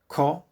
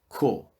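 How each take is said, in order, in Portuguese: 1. A vogal é um o aberto. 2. A vogal é um o fechado.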